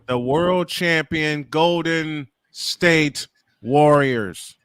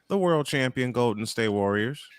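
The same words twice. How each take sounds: First: It is said loudly. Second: It is said at normal volume.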